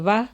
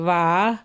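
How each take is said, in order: First: The word is said short and plain. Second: The word is stretched out and drawn long. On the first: The speaker is mildly pleased. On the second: The speaker is greatly delighted.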